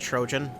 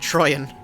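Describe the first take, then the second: First: The middle consonant is a J sound. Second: The middle consonant is a Y-like sound. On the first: The speaker calls it wrong. "that doesn't say Trojan" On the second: The speaker calls it right. "they say Trojan. That makes more sense"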